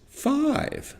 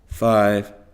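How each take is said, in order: First: The pitch rises higher on this word. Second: The pitch stays level with the other numbers. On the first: "a little arrow over the top of five, pointing up" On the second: "our voice is always in the same place for each number"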